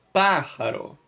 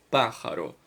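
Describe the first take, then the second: First: "Pájaro" with the first syllable PÁ punched higher; stress on PÁ. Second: Said in the usual way. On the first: Shown as a demonstration. Teacher showing which syllable is tonic, stress on the Pá of "Pájaro". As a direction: hit the "Pá" of "Pájaro" hardest, then let it fall. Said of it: "O pá é a mais forte". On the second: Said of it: "vocês temos aí límite".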